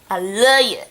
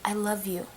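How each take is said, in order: First: It is said warmly, with real feeling. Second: It is said casually, without real feeling.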